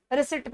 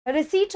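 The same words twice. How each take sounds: First: रिसिट with a short second i; wrong-sound demo. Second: रिसीट with a long, stressed ee; correct-sound demo. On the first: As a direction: keep the last vowel in रिसिट short. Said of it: "रिसिट नहीं होगा". (गलत उच्चारण: रिसिट, छोटी इ) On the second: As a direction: stretch the ई in रिसीट, no p. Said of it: "रिसीट होगा". (सही उच्चारण: रिसीट, लंबी ई) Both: Shown as a demonstration.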